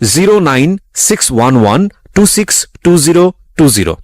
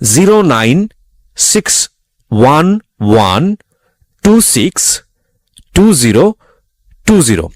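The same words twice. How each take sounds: First: The number is read at normal speed. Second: The number is read slowly.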